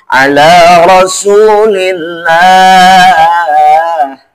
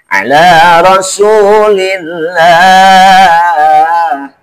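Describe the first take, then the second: No difference in how they are said.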